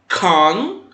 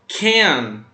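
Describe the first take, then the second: First: It is said with a British accent. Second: It is said with an American accent.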